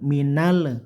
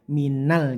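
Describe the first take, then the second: First: The final l bounces into an added vowel. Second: The final l ends plainly without a vowel. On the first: The speaker calls it wrong. "tidak boleh tawalut atau bendal ke le" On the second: The speaker calls it right. "tapi minal gitu aja"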